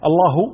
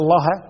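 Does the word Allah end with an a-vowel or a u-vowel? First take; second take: u-vowel; a-vowel. First: The word ends with a u-vowel. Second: The word ends with an a-vowel. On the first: God is the one who fears the scholars. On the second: The scholars are the ones who fear God.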